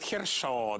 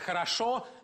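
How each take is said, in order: First: The word is said with vowels squeezed together. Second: The word is said with all vowels pronounced fully. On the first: "совсем по-московски, по-мещански говорит" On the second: "вместо «хорошо»"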